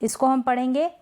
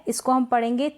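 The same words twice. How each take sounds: Both takes have the same delivery.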